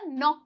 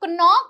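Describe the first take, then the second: First: The k is silent; it starts with n. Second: The k is pronounced before the n. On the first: The speaker calls it right. "नॉक कहलाएगा" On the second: The speaker calls it wrong. "तो इसे नॉक नहीं बोलते हैं"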